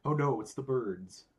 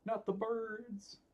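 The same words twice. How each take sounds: First: Said in the usual way. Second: High, slow dramatic wail; mock despair. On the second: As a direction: ham up the dread, drawn out. Opponent plays the bird cards.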